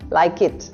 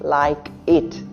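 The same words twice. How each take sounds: First: The two words run together without a break. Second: The two words are said separately with a break. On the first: The speaker calls it right. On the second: The speaker calls it wrong.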